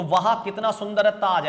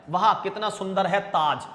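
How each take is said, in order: First: वाह कितना सुंदर है ताज, louder, marvelling at the Taj; teacher demos an exclamation, louder; exclamation of wonder. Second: Said in the usual way. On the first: Shown as a demonstration. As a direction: admire it aloud, as if seeing it now. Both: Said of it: "ऐसा चिन्ह लगा लेते हैं हम पीछे".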